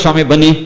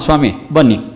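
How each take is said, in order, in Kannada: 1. ಸ್ವಾಗತವನ್ನು ಪ್ರೀತಿಯಿಂದ ಮತ್ತು ಖುಷಿಯಿಂದ ಹೇಳಲಾಗಿದೆ. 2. ಸ್ವಾಗತವನ್ನು ಬೇಸರದಿಂದ, ಉತ್ಸಾಹವಿಲ್ಲದೆ ಹೇಳಲಾಗಿದೆ. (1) "ತುಂಬ ಸಂತೋಷ" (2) "ಧ್ವನಿಯಲ್ಲಿರ್ತಕ್ಕಂಥ ನಿರುತ್ಸಾಹ"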